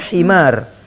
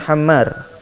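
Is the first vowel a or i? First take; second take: i; a. First: The first vowel is i with a short m. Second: The first vowel is a with a long m. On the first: The speaker calls it right. "itu bacanya himar" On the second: The speaker calls it wrong. "bukan hammar"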